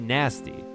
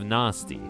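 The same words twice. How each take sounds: First: The word has an American vowel sound. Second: The word has a British vowel sound. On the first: "I still say nasty" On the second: "instead of nasty"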